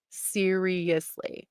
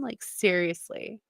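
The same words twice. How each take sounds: First: "Seriously" drawn out very slowly, every syllable weighed; slow emphatic. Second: Said in the usual way. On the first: Real, not acted. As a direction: stretch "Seriously" slowly in disbelief.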